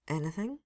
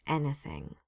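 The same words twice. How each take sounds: First: Nervous question. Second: Grim confirmation. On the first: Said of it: "Jack asked". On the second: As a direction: shut it down, grim. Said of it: "Susan said grimly". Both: A narrator's reading.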